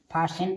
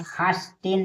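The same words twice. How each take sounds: First: "फासेन" with s and no t; silent-t reading of "फासेन". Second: "फास्टेन" with an audible t; T sounded. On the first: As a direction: say "फासेन", s straight into -en. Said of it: "यानी फासेन पढ़ेंगे". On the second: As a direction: say "फास्टेन" with the st cluster. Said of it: "फास्टेन नहीं पढ़ेंगे". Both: Shown as a demonstration.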